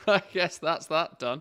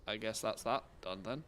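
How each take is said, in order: First: Laughing through the words; real laugh while speaking. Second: Said in the usual way. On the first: Real, not acted. Laughing at own result.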